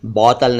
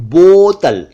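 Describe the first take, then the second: First: बोतल low with open "au"; quick "aw" in बोतल; mispronounced बोतल. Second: बोतल higher with long rounded "o"; pure "oh" in बोतल; correct बोतल. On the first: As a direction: say बोतल wrongly as "bautal". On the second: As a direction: say बोतल emphatically as "botal". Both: Shown as a demonstration. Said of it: "बोतल नहीं".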